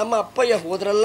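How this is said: It ends sounding unfinished, continuing on.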